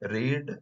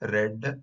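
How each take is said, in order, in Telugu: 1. అచ్చు దీర్ఘంగా ఉంది, 'need' లో లాగా. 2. అచ్చు హ్రస్వంగా ఉంది, 'bed' లో లాగా. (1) "వి వన్" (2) "వి టూ"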